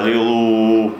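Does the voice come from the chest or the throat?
chest. The voice is relaxed and comes from the chest. The speaker calls it right. "надо аллилу. Ну, то есть от груди"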